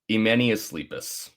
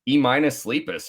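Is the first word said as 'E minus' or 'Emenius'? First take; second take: Emenius; E minus. First: The first word is said as one word, 'Emenius'. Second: The first word sounds like the letter E, then 'minus'. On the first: The speaker calls it right. "That's how you say it" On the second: The speaker calls it wrong. "I was like E minus sleepest"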